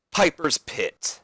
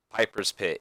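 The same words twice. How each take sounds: First: Slow, higher announcer call; dramatic, drawn-out segment announcement. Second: Said in the usual way. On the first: Acted. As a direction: stretch it out like a ring announcer.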